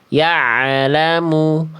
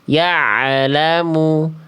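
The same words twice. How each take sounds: No difference in how they are said.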